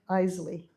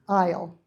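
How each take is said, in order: First: The word is said with an S sound. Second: The word is said without an S sound. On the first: The speaker calls it wrong. "It's not Isley" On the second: The speaker calls it right. "there is a, a silent S in the word aisle"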